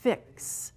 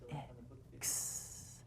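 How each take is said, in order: First: The word is said at a normal pace. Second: The word is said slowly and drawn out.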